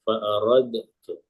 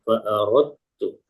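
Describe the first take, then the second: First: The d is sounded with a slight bounce. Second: The d merges fully into the t. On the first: "Seandainya tidak diidghamkan maka bunyinya fa aradtu karena qalqalah" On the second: "Karena diidghamkan maka bacanya fa aradtu. Jadi dalnya sudah tidak terbaca lagi"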